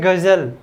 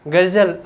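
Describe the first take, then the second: No difference in how they are said.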